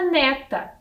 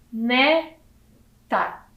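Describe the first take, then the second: First: Said in the usual way. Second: "Neta" split, ne... ta; syllable by syllable. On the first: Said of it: "Eu tenho a palavra neta". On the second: Shown as a demonstration. Teacher revealing the word to children, syllable by syllable. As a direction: sound out "Neta" slowly with a clear gap. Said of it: "Que palavra é essa?".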